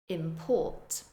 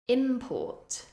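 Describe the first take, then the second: First: The stress is on the second syllable. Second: The stress is on the first syllable. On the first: It is a verb. "the verb form, stressing the second syllable" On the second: It is a noun. "the noun form, stressing the first syllable"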